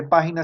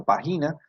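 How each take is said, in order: First: Said in the usual way. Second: "página" said as pa-GI-na, stress moved to the middle; misplaced stress. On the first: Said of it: "sino página". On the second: Shown as a demonstration. Teacher shows how a student's word reads, misplaced stress. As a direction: stress GI in "página", as if it had no accent. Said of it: "pues no dice página sino página".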